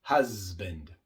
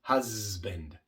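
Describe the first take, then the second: First: The S is buzzed with voice. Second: The same.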